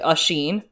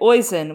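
First: The name begins 'oo' and ends 'sheen'. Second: The name begins 'oy' and ends 'sin'. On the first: The speaker calls it right. "It's actually usheen" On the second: The speaker calls it wrong. "which does not rhyme with hoisin sauce"

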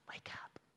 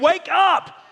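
First: It is said calmly, like gently waking someone. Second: It is said with frustration and fiery passion.

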